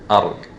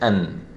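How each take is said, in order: First: The n is dropped and merged into r. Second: A clear n sound is pronounced. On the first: The speaker calls it right. "We'll be saying Ar. As if there is no Nun at all" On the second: The speaker calls it wrong. "We shouldn't say An"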